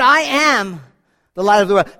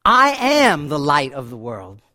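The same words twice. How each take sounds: First: A quicker, louder declaration; ringing proclamation. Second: A low, slow, drawn-out declaration; low slow proclamation. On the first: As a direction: proclaim it out loud to the crowd. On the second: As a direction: let each word land slowly and deep. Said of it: "Jesus just looking at them out going". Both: Acted.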